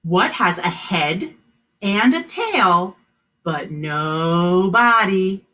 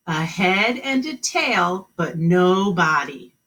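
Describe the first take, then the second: First: Slow and emphatic question; drawn out, each part stressed; slow riddle reading. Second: Slow repeat. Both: Shown as a demonstration. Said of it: "the new riddle".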